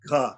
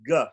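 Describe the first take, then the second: First: The consonant is said with a strong puff of air. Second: The consonant is said without a puff of air. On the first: "If we pronounce it with more air" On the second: "The G in give is going to be pronounced G"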